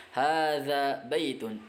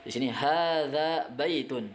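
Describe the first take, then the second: First: Hadza baitun spelled out slowly, each syllable clear; teacher modelling Arabic words slowly; slow model reading. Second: Said in the usual way. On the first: Shown as a demonstration. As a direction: read Hadza baitun slowly for learners to repeat.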